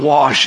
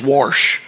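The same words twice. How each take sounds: First: The word is said without an r sound. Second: The word is said with an added r sound. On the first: The speaker calls it wrong. "It's not wash" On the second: The speaker calls it right. "I like to add an R in wash"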